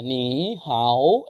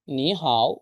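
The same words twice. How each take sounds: First: নি হাও said with two low third tones; wrong tones demo. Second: নি rising, হাও low dipping; correct tones. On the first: Teacher showing the wrong way to say নি হাও. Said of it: "এরকম হবে না।". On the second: Teacher showing the right tones of নি হাও. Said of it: "প্রথমটা second tone, পরেরটা third tone.". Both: Shown as a demonstration.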